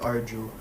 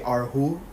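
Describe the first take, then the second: First: The middle consonant is a J sound. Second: The middle consonant is a soft H sound. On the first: "I'll stick with Arju" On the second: "they say Arhu"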